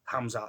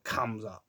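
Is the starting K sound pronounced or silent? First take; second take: silent; pronounced. First: The word starts without a K sound. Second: The word starts with a clear K sound. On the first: The speaker calls it right. "I think it's a silent K" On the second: The speaker calls it wrong.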